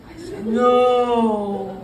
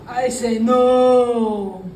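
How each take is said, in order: The two takes are said the same way.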